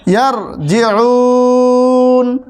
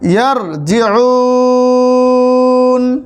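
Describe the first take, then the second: First: The vowel is drawn out, then the voice stops. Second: The vowel is drawn out, then the voice stops.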